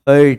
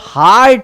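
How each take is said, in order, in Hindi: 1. यह स्वर छोटी 'er' ध्वनि है। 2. यह स्वर लंबी, खुली 'ah' ध्वनि है। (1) "न कि हर्ट है" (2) "सही प्रोनाउंसिएशन है वो हार्ट है"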